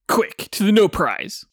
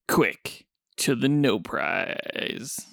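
First: It is said in a normal, everyday voice. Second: It is said in a low, sultry voice.

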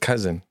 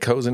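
First: The first vowel sounds like 'uh'. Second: The first vowel sounds like 'oh'. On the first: The speaker calls it right. "It was cousin" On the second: The speaker calls it wrong. "I said cozen earlier"

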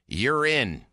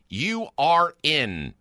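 First: The words are contracted into one run. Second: The words are said fully and separately. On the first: "You said it contracted" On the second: "Not urine"

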